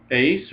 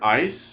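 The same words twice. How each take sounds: First: "Eis" said like "ace"; epsilon iota as "ay". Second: "ice" said with a long i; epsilon iota as "eye". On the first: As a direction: say "Eis" with the vowel of "day". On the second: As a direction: say "ice" with the vowel of "my". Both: Shown as a demonstration. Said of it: "pronounce that epsilon iota as either".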